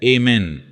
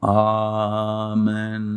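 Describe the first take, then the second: First: It is said in the American form. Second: It is said in the older, original form.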